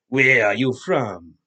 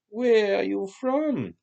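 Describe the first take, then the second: First: The question is asked in a rough tone. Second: The question is asked in a plain tone.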